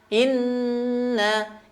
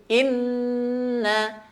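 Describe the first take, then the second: The two takes are said the same way.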